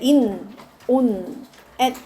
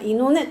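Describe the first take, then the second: First: The three words are said separately with pauses. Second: The three words run together fast like one word.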